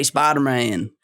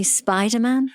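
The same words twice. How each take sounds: First: Southern drawl on "Spider-Man"; Deep South accent. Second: "Spider-Man" with no R, British-style; British pronunciation. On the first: British actor showing his slip, Southern accent. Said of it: "that is the Deep South". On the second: Guessing co-guest's habit, British "Spider-Man". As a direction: say "Spider-Man" as a Brit would. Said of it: "you'd wanna say Spider-Man". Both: Shown as a demonstration.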